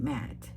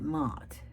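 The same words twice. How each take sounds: First: "matte" with a short front a, as in cat; "matte" the way locals here say it; local pronunciation of matte. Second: "matte" with a long open ah; "matte" with the vowel of father; own pronunciation of matte. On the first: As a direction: say "matte" to rhyme with hat. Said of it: "Here, people call it matte". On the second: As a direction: say "matte" like "maht". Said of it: "I call it matte". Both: Shown as a demonstration.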